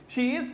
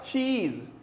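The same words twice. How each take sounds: First: Both words are said fully and separately. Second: The two words merge into one syllable.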